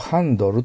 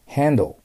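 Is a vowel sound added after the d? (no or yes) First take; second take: yes; no. First: A vowel is inserted after the d sound. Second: No vowel follows the d sound. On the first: The speaker calls it wrong. "これをハンドルと読まないようにしてください。" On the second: The speaker calls it right. "Handle と読みます。"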